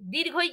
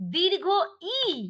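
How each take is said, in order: First: The two parts are run together as one. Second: The two parts are said clearly separated. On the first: The speaker calls it wrong. "কিন্তু হবে না। দীর্ঘই ভুল শব্দ।" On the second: The speaker calls it right. "বলতে হবে দীর্ঘ ই।"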